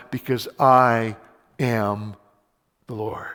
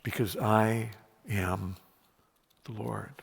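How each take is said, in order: First: Slow and stressed on I; firm emphatic. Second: Softer, lower and slow; hushed slow repeat. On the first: Preacher proclaiming God's claim, firm and slow. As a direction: lean on I before a pause. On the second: Preacher echoing God's claim, hushed and slow. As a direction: say it again almost in a whisper. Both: Acted.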